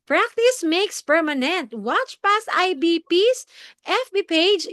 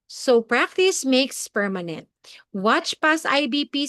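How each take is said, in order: First: High, slow, hammed-up presenter voice; overexcited. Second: Slow, modulated voice with rises on PRACTICE and PAST; measured presenter delivery, rising and falling on "Watch past I B P"; up-and-down modulation. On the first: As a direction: overact it with big pitch swings. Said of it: "hindi naman pwedeng all excited ka". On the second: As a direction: lift and drop the pitch through "practice makes permanent". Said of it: "may up and down yan ang boses". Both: Shown as a demonstration.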